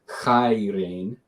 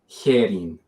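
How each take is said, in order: First: It is said in the Erasmian pronunciation. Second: It is said in the Koine-style pronunciation. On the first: "what many in Erasmian would pronounce as"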